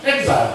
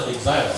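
First: Exile with the American stress, EK-sile. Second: Exile said Japanese-style, like e-ki-sai-ru. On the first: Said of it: "正式的美国发音读做". (美式发音读exile) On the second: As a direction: give exile a katakana Japanese reading. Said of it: "日本读做exile". (日式发音读exile) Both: Shown as a demonstration.

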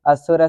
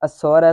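First: ਅਸੁਰ said as "as-sur", with short u; short u vowel. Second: ਅਸੁਰ said as "a-sor", with an o; open o vowel. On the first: Pupil reciting before correction, ਅਸੁਰ said "assur". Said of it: "ਅਸੁਰ ਨਹੀਂ ਬੋਲਣਾ". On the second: Pupil repeating the correction, ਅਸੁਰ said "a-sor". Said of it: "ਇਸ ਤਰ੍ਹਾਂ ਬੋਲਣਾ". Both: Real, not acted.

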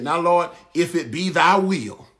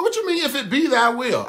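First: Slow, drawn-out mock prayer; imitated prayer. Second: High-pitched, laughing disbelief; incredulous challenge. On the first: Preacher showing how people end a prayer, imitated solemn praying. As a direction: intone it like someone hedging a prayer. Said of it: "show you the little prayer". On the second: Acted. Preacher challenging a hedged prayer, incredulous and high. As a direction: throw the phrase back in mock disbelief.

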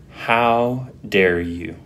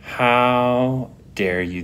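First: Indignant. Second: Slow, stunned indignation; mock-offended how dare you; indignant. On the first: Retold or imitated. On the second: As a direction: drag out the disbelief. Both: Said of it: "The indignation".

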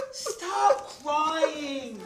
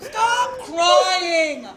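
First: Softer, drawn-out plea; gently consoling. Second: Drawn-out exasperated outburst. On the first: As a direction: hush a crying wife softly. Husband soothes his crying wife. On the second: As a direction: cry it out, out of patience. Husband loses patience with wife's crying. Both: Acted.

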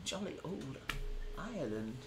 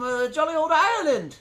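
First: Much softer, lower mumbled repeat; quietly second-guess the phrase; muttered repeat. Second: Said in the usual way. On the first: Shown as a demonstration. Streamer doubting his own Ireland phrase, muttered lower. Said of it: "That's not what they say".

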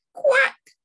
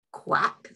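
First: High, loud quacking mother duck. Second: Whispered duck quack. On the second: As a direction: quack in a hushed voice at bedtime. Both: Acted. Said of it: "says the mother duck".

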